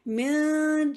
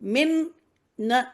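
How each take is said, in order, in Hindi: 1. "n" ध्वनि नाक वाली ध्वनि की तरह छिपी रहती है। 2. "n" ध्वनि पूरी और साफ़ बोली जाती है। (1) "जबान को पहले रोक लेंगे" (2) "मिन नहीं करेंगे यहाँ पे"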